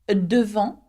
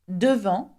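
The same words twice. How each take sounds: The two takes are said the same way.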